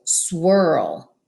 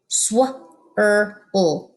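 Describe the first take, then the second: First: Said in the usual way. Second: Sw, er, l segmented; sounded out. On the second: Shown as a demonstration. Teacher sounding out Sw-er-l for kids. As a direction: break swirl into Sw-er-l. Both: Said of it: "Read with me".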